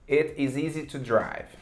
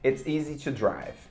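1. "It is" é dito como duas palavras completas. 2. "It is" é contraído em uma sílaba.

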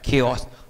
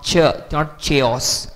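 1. शब्द की शुरुआत k की आवाज़ से होती है। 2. शब्द की शुरुआत ch की आवाज़ से होती है। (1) "The pronunciation of K is used" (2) "not chaos"

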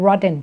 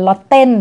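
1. พยัญชนะตรงกลางออกเสียงคล้าย D 2. พยัญชนะตรงกลางเป็นเสียง T ชัดเจน (1) "พวกคนอเมริกันเขามักจะอ่านตัว T ตรงกลางเป็นเสียง D" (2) "มันจะไม่เจอเป็น"

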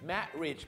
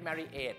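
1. สระตรงกลางไม่ออกเสียง 2. สระตรงกลางออกเสียงชัดเจน (1) "ตัว, a, ไม่ออกเสียงครับนั่นจะเป็น" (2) "ไม่ใช่"

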